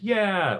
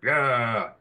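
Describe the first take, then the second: First: High-pitched drawn-out "yeah"; high crew cheer. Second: Low drawn-out "yeah"; lower crew cheer. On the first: First crowd pass for the crew, high cheer. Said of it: "Okay, now make it lower". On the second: Second crowd pass for the crew, lower cheer. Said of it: "now make it lower". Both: Shown as a demonstration.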